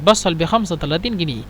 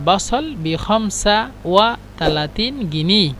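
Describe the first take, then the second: First: The number words are run together without breaks. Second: Each number word is said separately and fully. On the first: This is how people actually say it. "এভাবে বলে" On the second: This is how it is written. "এখানে লেখা আছে"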